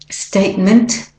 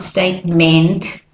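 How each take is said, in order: First: The last syllable has a weak schwa vowel. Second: The last syllable has a full vowel, like meant. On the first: The speaker calls it right. "It's statement" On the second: The speaker calls it wrong. "It's not statement"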